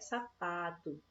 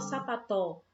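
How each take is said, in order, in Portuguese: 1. A sílaba do meio é tônica. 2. A sílaba do meio é átona. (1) "o pá a gente demora mais" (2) "a gente não fala sapató"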